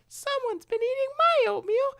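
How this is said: It is said in a very high Little Bear voice.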